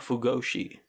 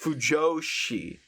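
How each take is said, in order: First: The middle consonant is a hard G sound. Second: The middle consonant is a J sound. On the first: The speaker calls it wrong. "I just pronounced the J like a G" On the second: The speaker calls it right. "it's Fujoshi"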